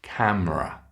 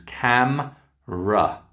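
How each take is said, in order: First: Said in the usual way. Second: "Camera" slowly broken into cam... ruh; split syllables. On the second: Shown as a demonstration. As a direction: pause between the two syllables of "Camera". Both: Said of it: "it's got two syllables".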